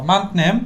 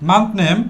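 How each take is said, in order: No difference in how they are said.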